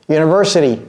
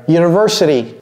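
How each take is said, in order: No difference in how they are said.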